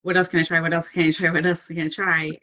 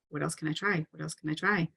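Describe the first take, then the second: First: Rapid repeated urgent questioning; urgent survival mode. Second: Calmer level. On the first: Coach voicing someone in a crisis, mildly urgent. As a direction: fire off each question with mild urgency. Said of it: "you're just so motivated to survive". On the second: Coach modelling everyday problem solving, calm and soft. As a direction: ask it quietly, without the urgency. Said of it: "like, a calmer level". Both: Acted.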